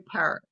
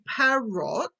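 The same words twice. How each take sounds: First: The sounds are relaxed and reduced. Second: Every sound is said fully and carefully. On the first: "we just say parrot" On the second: "We don't say parrot"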